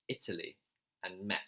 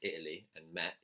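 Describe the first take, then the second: First: The T sounds are clearly pronounced. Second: The T sounds are dropped. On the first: "He said" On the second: "How some British people drop their T's, right? He didn't say"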